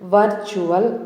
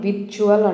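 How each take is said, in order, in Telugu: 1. మొదటి అచ్చు 'er' ధ్వని. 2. మొదటి అచ్చు చిన్న 'i' ధ్వని. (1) "వర్చువల్ అని ప్రొనౌన్స్ చేయాలి" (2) "విర్చువల్ అనే ప్రొనౌన్సియేషన్ రాంగ్ అండి"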